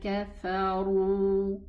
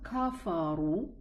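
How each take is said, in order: First: The first syllable ka is light, not elevated. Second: The first syllable ka is heavy and elevated. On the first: The speaker calls it right. "It's ka, fa, ru" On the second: The speaker calls it wrong. "It's not kafaru"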